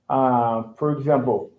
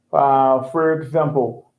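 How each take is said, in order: Both takes have the same delivery.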